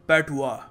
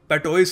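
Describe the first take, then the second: First: It ends in a 'wa' sound with no s. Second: It ends in an 'ois' sound with an s. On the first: The speaker calls it right. "इसको pronounce करने का सही तरीका है पैटुआ" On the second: The speaker calls it wrong. "पैटोइस नहीं है जैसे लिखा है यहाँ पर"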